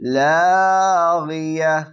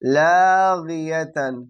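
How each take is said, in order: First: The word ends on a plain open vowel. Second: The word ends with a full '-atan' syllable. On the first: This is the form used when stopping. "কি পড়বো? লাগিয়া" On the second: This is the written form. "আসলে আছে লাগিয়াতান"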